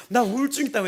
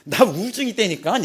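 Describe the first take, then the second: First: 나 stressed, high and loud with a falling end; insisting firmly. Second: 우울증 stressed, high and loud with a rising end; insisting. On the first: Repeating to the examiner who ignored him, loud firm 나. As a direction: land hard on 나 and drop the end. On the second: Telling the examiner he is depressed, loud insisting on 우울증. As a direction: push 우울증 up, louder and higher, asking in disbelief. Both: Retold or imitated.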